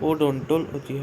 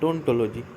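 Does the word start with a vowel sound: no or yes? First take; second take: yes; no. First: The word begins with an initial 'o' vowel. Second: The word begins directly with a 'd' sound. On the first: The speaker calls it wrong. "এখানে ওর উচ্চারণটা হবে না, ওডোন্টোলজি হবে না" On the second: The speaker calls it right.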